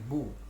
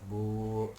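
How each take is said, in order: First: The vowel is short. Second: The vowel is long. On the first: "ba tadi dikasih domah menjadi bu" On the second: "Setelah bu itu ada huruf waw sukun menjadi bu"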